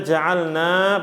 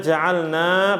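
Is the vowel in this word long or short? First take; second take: long; long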